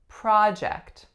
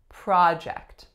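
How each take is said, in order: First: The stress is on the first syllable. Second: The stress is on the first syllable.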